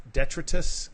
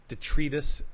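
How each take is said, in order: First: "detritus" as DET-rih-tus, stress up front; second-try pronunciation. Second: "detritus" as dih-TREE-tus, stress in the middle; alternate pronunciation. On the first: Reader correcting a word from the article, "detritus" as DET-rih-tus. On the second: Reader trying out a word from the article, "detritus" as dih-TREE-tus. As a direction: say "detritus" with a long ee in the second syllable. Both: Real, not acted.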